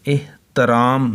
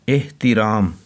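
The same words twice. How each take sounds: First: "एहतराम" as eh-ta-raam, short a after t; mispronunciation. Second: "एहतिराम" as eh-ti-raam, short i after t; short i on the middle syllable of "एहतिराम"; correct pronunciation. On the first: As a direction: middle syllable of "एहतराम" on a, not i. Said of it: "इसे एहतराम नहीं पढ़ना". ("एहतराम" में ते पर ज़बर, एह-त-राम) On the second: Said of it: "बल्कि ते के नीचे". ("एहतिराम" में ते के नीचे ज़ेर, एह-ति-राम) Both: Shown as a demonstration.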